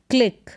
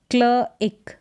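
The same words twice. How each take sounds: First: Said in the usual way. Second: क्ल इक in two parts; sounded out. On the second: Shown as a demonstration. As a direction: separate क्ल from a short इक. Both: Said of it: "सी एल का उच्चारण क्ल".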